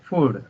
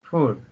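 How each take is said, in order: The two takes are said the same way.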